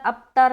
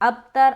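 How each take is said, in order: The two takes are said the same way.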